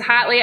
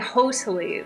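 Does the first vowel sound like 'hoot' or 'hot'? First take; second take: hot; hoot. First: The first vowel sounds like 'hot'. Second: The first vowel sounds like 'hoot'. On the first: The speaker calls it right. "I learned it was hotly" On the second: The speaker calls it wrong. "I always thought it was supposed to be hostly"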